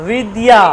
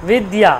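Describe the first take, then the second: Both takes have the same delivery.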